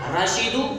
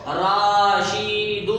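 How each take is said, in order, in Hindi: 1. स्वर छोटे और तेज़ हैं। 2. स्वर लंबे खिंचे हुए हैं। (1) "सही इस तरह होगा" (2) "अगर हम इसको राशीदू पढ़ेंगे तो गलत होगा"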